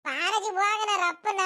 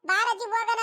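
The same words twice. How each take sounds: First: Put-on slow, whiny boy's call to grandma; hint of a nagging grandson, drawn out; impatient boy. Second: High mock-childish echo of the boy's whine; grandma mimicking the grandson's nagging. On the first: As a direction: pester grandma like a restless kid. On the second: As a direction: parrot the grandson teasingly, higher. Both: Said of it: "ಬಾರಜಿ ಹೋಗಣ ರಪ್ಪನ ಅಂತ ಹೇಳಿರೋದು".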